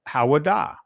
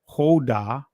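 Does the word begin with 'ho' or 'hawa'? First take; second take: hawa; ho. First: The word begins with two syllables, 'ha-wa'. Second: The word begins with a single 'ho' syllable. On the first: This is how ancient Hebrew would say it. "But in ancient Hebrew" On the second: This is the reading shown with the O mark. "even though we see the O here"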